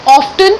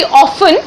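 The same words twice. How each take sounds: First: "often" with the T sounded; pronounced T. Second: "often" with the T left silent. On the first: Teacher showing today's pronunciation of "often", T sounded. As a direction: say "often" as OFF-ten, T clearly heard. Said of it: "but now it is called often also". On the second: Teacher showing the older pronunciation of "often", silent T. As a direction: say "often" as OFF-en, no T sound. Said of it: "टी को हम नहीं pronounce करते थे". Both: Shown as a demonstration.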